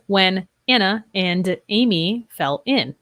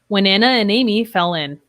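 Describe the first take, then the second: First: Each word is said separately without linking. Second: The words run together with linked sounds. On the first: "Instead of" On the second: "here we see we have three linked sounds"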